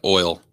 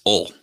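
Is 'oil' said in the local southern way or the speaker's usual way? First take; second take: usual; local southern. First: The word is said in the speaker's usual way. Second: The word is said the local southern way. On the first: The speaker calls it right. "as long as I've been alive, it's been oil" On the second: The speaker calls it wrong. "Down here, it's ol. Which is messed up"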